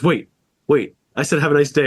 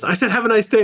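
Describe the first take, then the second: First: A touch of rising panic, imitating the guy; half-hearted flustered repeat; mock worker starting to fret; mildly panicked. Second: Much higher, frantic repeat; mock panicked worker pleading. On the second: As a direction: imitate him losing it, pitch flying up. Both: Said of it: "he starts freaking out and goes".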